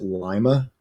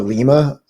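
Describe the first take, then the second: First: It is pronounced the local Ohio way. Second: It is pronounced the usual, widely known way. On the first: The speaker calls it wrong. "they pronounce it Lima" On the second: The speaker calls it right. "there's a Lima"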